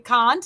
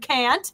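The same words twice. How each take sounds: First: The vowel is a broad, open Boston-style A. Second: The vowel is a flat Wisconsin-style A. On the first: The speaker's accent is being influenced by someone else. "I'm starting to sound like a Bostonian with my A's" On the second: This is the speaker's usual local accent. "like a true Wisconsinite"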